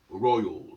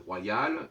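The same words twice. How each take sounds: First: The word is said with the English pronunciation. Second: The word is said with the French pronunciation. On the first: This is how English speakers say it. "eux ils disent royal" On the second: This is how French speakers say it. "on dit royal"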